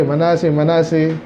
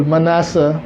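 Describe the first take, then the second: First: Said in the usual way. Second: Manasseh said as "ma-NA-sa", ending in an open a; audio Bible's pronunciation. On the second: Retold or imitated. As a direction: copy the audio Bible's "Manasseh", final vowel a, not i. (bigkas ng "Manasseh" na nagtatapos sa "a" gaya ng audio Bible) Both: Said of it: "sabi ng aking audio Bible".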